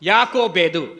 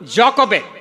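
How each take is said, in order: First: The name is said with Telugu pronunciation. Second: The name is said with English pronunciation. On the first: "Telugu మనం చదువుతూ ఉన్నప్పుడు" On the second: "జాకోబెద్ అని అంటారు ఇంగ్లీష్లో"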